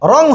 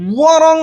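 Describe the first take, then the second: First: The word starts directly with an r sound. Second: The word starts with a w sound. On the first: The speaker calls it right. "বরং রং হবে" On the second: The speaker calls it wrong. "ওয়ারং হবে না"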